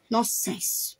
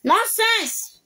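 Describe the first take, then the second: First: Quiet, low-pitched dismissive word; low dismissal. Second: Indignant word pitched high; high-pitched dismissal. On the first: Dismissing an accuser under the breath, quiet and low. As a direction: say it low, half to yourself. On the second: Dismissing an accuser a second time, high and indignant. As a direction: throw it out high in the voice. Repeats the dismissal much higher. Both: Real, not acted.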